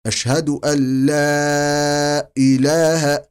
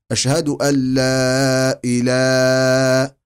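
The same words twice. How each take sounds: First: إله with a short two-beat madd, slow and clear; natural madd. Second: إله with the first alif drawn out far too long; mock wrong long madd; over-stretched إله. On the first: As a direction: keep إله brief and natural. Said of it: "إله مد طبيعي". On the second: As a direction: drag إله as the mistake. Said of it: "إله خطأ". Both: Shown as a demonstration.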